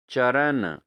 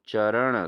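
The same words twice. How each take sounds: First: चरण ending in plain n; wrong pronunciation. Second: चरण ending in retroflex n; correct pronunciation. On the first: Teacher shows students the error, चरण with plain n. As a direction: say चरण as "charan", dental n. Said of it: "अशुद्ध रूप है". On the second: Teacher gives students the right form, चरण with retroflex n. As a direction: flap the final n of चरण. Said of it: "शुद्ध रूप है". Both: Shown as a demonstration.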